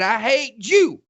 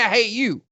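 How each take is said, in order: First: The last word starts with a 'j' sound. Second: The last word starts with a 'y' sound. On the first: It is what actually came out because of a speech defect. The speaker calls it wrong. "Hitler had a lisp" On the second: It is what was meant. The speaker calls it right. "He was trying to say"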